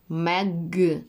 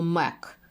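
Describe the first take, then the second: First: The word ends in a hard g sound. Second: The word ends in a voiceless k sound. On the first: The speaker calls it right. "Щоб я чула твердий г" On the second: The speaker calls it wrong. "або мек"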